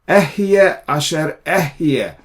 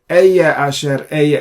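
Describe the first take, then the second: First: The first word is said as 'eh-yeh', two syllables. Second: The first word is said as a single 'eye' syllable. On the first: The speaker calls it right. "That's how you pronounce it" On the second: The speaker calls it wrong. "It is not Eye"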